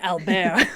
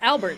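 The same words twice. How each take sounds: First: The name is said with a French pronunciation. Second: The name is said with an English pronunciation. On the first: The speaker calls it right. "it really should have been Albert" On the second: The speaker calls it wrong. "just going Albert"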